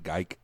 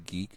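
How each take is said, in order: First: The vowel differs from the one in 'seek'. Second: The vowel sounds like the one in 'seek'. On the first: This goes back to the original pronunciation. "he pronounces it geik" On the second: This is how most of the family says it. "they all say geek"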